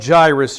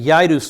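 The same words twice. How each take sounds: First: The name starts with a J sound. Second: The name starts with a Y sound. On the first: This is how the name is said in English. "we'll call him Jairus just for sake of uh, English" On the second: This is how the name was said in the original language. "would have been the pronunciation of his name with a Y, not a J"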